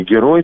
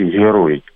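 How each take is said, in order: First: «герой» with a hard stop g; Russian pronunciation. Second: «герой» with a fricative, h-like g; Belarusian pronunciation. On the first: Linguist contrasts the two languages, hard g in «герой». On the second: Linguist shows Belarusian speech, fricative g in «герой». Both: Shown as a demonstration. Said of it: "по-белорусски".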